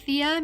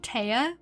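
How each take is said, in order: First: The name begins like 'thee', then 'uh'. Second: The name begins like 'tie', then 'uh'. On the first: The speaker calls it right. "I don't say her name like Thea" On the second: The speaker calls it wrong. "Maybe I say it like Taya. ... that seems weird"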